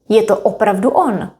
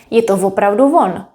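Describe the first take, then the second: First: The last word starts directly with a vowel. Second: The last word starts with an added v sound. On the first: "Now let's say it faster" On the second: "You can add V in front of the word"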